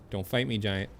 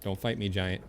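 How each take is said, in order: Both takes have the same delivery.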